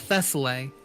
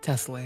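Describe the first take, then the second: First: The name begins with a 'th' sound. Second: The name begins with a plain 't' sound. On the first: The speaker calls it wrong. "Did I pronounce it right?" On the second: The speaker calls it right. "The H is fucking like not even existent"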